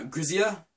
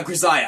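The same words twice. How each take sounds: First: "Grisaya" said with an EE middle, as griz-EE-uh; tentative pronunciation. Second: "Grisaya" said with an EYE middle, as griz-EYE-uh; settled pronunciation. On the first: Vlogger unsure of a title, "Grisaya" as griz-EE-uh. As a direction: softly try "Grisaya" as griz-ee-uh. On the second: Vlogger confirming a title, "Grisaya" as griz-EYE-uh. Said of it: "that's how you say it". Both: Real, not acted.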